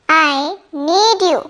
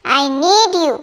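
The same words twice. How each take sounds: First: Deliberate slow classroom model; slow, careful repeat. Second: Said in the usual way. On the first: Shown as a demonstration. Teacher repeating the sentence slowly for students. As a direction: say it slowly so learners catch each word. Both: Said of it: "teacher models sentence twice".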